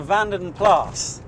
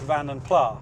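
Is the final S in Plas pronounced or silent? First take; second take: pronounced; silent. First: The final S of Plas is pronounced. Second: The final S of Plas is silent. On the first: The speaker calls it right. "I think that's the correct pronunciation" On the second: The speaker calls it wrong. "when I stopped calling it Vanden Plas"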